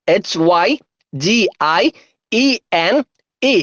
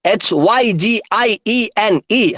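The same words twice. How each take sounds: First: Letters in pairs with long pauses; unhurried, separated letter names; slow spelling. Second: Letters strung together evenly; quicker, rhythmic letter chant; speedy spelling. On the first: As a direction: spell it out slowly for dictation. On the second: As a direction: run through the spelling without stopping. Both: Shown as a demonstration. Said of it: "ഒന്നുകൂടെ സ്പീഡില്".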